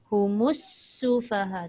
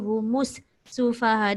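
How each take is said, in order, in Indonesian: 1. Kedua kata itu menyambung tanpa jeda. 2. Ada jeda di antara kedua kata itu. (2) "jangan baca humus sufaha. Dia jangan macam seolah-olah terputus"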